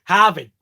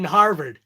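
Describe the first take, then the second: First: Punchy Boston "Harvard", Hahvid; Boston accent. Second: "Harvard" with both R's clearly sounded; R's pronounced. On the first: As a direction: drop the R's in "Harvard" like a Bostonian. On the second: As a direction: say "Harvard" in standard American, R's and all. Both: Shown as a demonstration. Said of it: "There's an R in Harvard".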